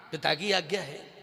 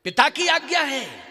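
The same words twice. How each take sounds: First: Low-pitched, subdued acted reply; subdued repeat. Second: Higher, louder acted exclamation; raised exclamation. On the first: Kaushalya's dialogue with Ram on father's order, subdued confirmation. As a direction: say it low and settled. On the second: Kaushalya's dialogue with Ram on father's order, raised exclamation. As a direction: call it out on a raised pitch.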